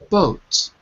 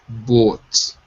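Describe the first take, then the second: First: The vowel sounds short and high. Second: The vowel sounds deeper and lower. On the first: This is the American English way. "mine is sort of short and high" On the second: This is how the learner says it. "when you're saying it, it's boat. And it's sort of a deeper sound"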